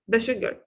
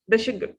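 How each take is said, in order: No difference in how they are said.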